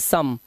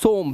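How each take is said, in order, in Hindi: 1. स्वर 'uh' जैसा सुनाई देता है। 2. स्वर 'oh' जैसा सुनाई देता है। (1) "लेकिन इसकी आवाज आती है सम" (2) "इसे पढ़ना चाहिए सोम वैसे इस रूल के अकॉर्डिंग"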